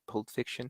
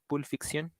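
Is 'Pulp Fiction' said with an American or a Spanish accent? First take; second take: American; Spanish. First: It is said with an American English accent. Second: It is said with a Spanish accent. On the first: The speaker calls it wrong. "obviously not Pulp Fiction because that is American accent" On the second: The speaker calls it right. "more like Pulp Fiction"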